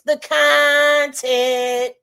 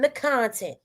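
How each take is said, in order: First: It is said imitating Deuce's voice. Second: It is said in the speaker's own voice.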